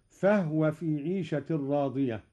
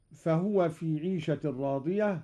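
First: "فهو" as fahwa, not fahuwa; vowelless ha. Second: Said in the usual way. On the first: Shown as a demonstration. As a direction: close the ه of "فهو" straight onto the و. ("فهو" بإسكان الهاء) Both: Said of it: "أسكن الهاء أيضًا قالون".

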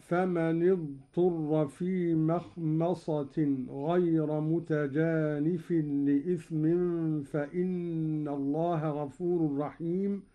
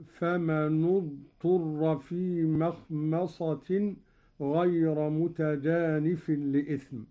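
First: Said in the usual way. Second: فمن اضطر with the nun given u, famanu-dturra; Qalun reading. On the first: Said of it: "قرأ قالون بضم أولى الساكنين". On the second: Shown as a demonstration. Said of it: "قرأ قالون بضم أولى الساكنين وهو النون هكذا". (فمنُ اضطر بضم النون)

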